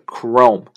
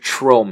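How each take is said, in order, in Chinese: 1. 这个词开头是K音。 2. 这个词开头是CH音。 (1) "CH 打头的CHROME 它发的是K 的音" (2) "不是Chrome 啊"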